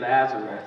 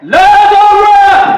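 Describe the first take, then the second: First: The name is said plainly and quietly. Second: The name is called out loudly.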